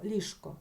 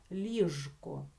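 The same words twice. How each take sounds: First: Said in the usual way. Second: Ліжко with a buzzing voiced Ж, not Ш. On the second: Shown as a demonstration. Teacher shows correct pronunciation, voiced Ж in Ліжко. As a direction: keep the Ж voiced before К in Ліжко. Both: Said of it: "це слово вимовляти з дзвінким звуком Ж".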